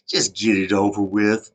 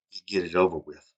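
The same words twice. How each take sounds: First: Slow, louder weary insistence; impatient demand. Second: Said in the usual way. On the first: Retold or imitated. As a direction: press him to say it now. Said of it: "I was like". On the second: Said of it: "act like it's a joke".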